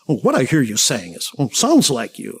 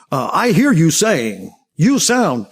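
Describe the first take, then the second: First: Canned counselor phrasing; techniquey listener. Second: Slow, drawn-out stock phrase rising at the end; techniquey listener. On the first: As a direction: recite the stock lines like a textbook. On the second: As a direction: stretch the canned line out like a phony counselor. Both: Retold or imitated. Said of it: "It comes off as fake or phony".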